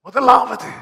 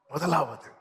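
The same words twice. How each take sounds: First: முதலாவது said loud and higher, falling; emphatic first. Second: முதலாவது said softer and lower; soft repeat. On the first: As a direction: punch முதலாவது hard. (முதலாவது அழுத்தமாக) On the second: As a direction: let முதலாவது drop quietly. (முதலாவது மெதுவாக) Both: Shown as a demonstration.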